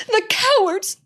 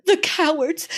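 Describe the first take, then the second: First: Much higher, tearful cry; sobbing girl, rising. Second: Higher, tearful cry; sobbing girl. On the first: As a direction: break higher in tears. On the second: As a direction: spit it out through tears. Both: Acted. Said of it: "sobbed Susan".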